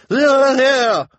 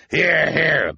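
First: Extremely high, very loud cheer; shrieked agreement. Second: High, loud call of assent; cry of agreement. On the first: Missus Morrow outdoes the others in agreeing, piercing cry. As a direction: shriek your support. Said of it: "Missus Morrow cried". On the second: Mister Lesko seconds the plan, hearty cry. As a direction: call out your support. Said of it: "Mister Lesko cried". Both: A narrator's reading.

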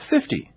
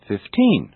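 First: "fifty" with a high FIF, falling away; stress on first syllable. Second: Put-on "fifteen" with TEEN stressed; stress on last syllable. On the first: Teacher showing which syllable is stressed, "fifty" stressed on FIF. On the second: Teacher showing which syllable is stressed, "fifteen" stressed on TEEN. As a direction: lean on the second syllable of "fifteen". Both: Shown as a demonstration. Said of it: "notice the different syllables being stressed".

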